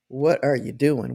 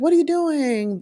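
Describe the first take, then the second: First: It sounds demanding and controlling. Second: It sounds curious and friendly.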